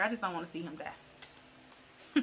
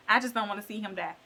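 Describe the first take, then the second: First: Mock weepy. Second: Said in the usual way. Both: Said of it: "And she was like".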